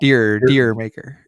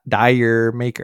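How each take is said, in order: First: The first word rhymes with fear. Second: The first word rhymes with fire. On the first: The speaker calls it right. "the correct pronunciation of that song is Deer Maker" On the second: The speaker calls it wrong.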